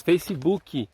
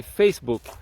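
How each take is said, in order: First: Facebook said fesibuki with an added i sound at the end; Brazilian-style Facebook. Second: Facebook said fesbuk, ending clipped on the k with no vowel after it; English Facebook. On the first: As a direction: say Facebook as fe-si-bu-ki, with the Brazilian extra vowels. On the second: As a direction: say Facebook the English way, fes-buk, with nothing after the final k. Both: Shown as a demonstration. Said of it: "Olha a diferença do inglês".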